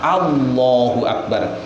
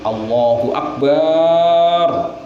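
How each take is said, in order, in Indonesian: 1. Vokal setelah b itu dibaca pendek. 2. Vokal setelah b itu dibaca panjang. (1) "asalnya dari lafadz" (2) "menambah alif setelahnya ba"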